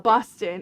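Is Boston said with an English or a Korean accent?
English. It is said in a plain English accent.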